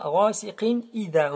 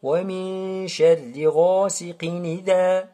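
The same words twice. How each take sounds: First: "idha" started afresh after "ghasiqin"; wrong unlinked reading. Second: Long "min", no hamza in "idha"; correct linked reading. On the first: Teacher shows what not to say, separated "idha". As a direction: sound the hamza at the start of "idha". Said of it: "on dit pas". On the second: Teacher gives Warsh reading, fused "ghasiqin idha". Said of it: "On dit". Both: Shown as a demonstration.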